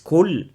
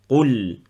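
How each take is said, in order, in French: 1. Elle commence par un k simple, avant de la langue. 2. Elle commence par un q profond, au fond de la langue. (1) "comme la plupart des élèves ils disent kol" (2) "il faut chercher plus profond par rapport au kaf"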